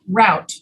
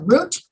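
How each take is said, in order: First: The vowel sounds like the one in out. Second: The vowel sounds like the one in boot. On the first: "You can pronounce it either root or route" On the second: "You can pronounce it either root or route"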